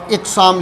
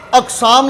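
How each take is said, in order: First: "اقسام" with i on the first letter; iqsaam, verbal noun form; second form. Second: "اقسام" said aqsaam with an open a; "اقسام" with a on the first letter; aqsaam, plural form. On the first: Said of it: "یہ درست ہے". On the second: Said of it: "تو یہ درست ہے". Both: Shown as a demonstration.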